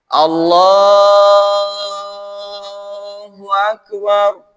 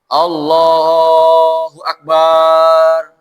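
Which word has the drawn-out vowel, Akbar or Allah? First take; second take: Allah; Akbar. First: The vowel in Allah is drawn out long. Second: The vowel in Akbar is drawn out long. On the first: The prayer stays valid. The speaker calls it right. "Yang boleh panjang hanya Allahnya" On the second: The prayer becomes invalid. The speaker calls it wrong. "jangan sampai akbarnya panjang"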